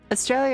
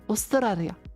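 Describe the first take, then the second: First: It is said with an ordinary English accent. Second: It is said with a Japanese accent.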